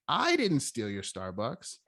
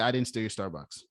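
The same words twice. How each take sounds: First: The first word carries strong stress. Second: No single word is given strong stress. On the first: Someone else did it, and the speaker may know who. "he didn't do it, but he probably knows who" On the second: The speaker simply denies the theft. "this guy's telling me he didn't steal my Starbucks"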